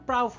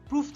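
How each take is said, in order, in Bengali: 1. স্বরধ্বনিটি 'out' শব্দের 'ow'-র মতো। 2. স্বরধ্বনিটি লম্বা 'oo'-র মতো। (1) "উচ্চারণ তখন কিন্তু প্রাউফ হয়ে যায়" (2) "প্রুফ থাকে না"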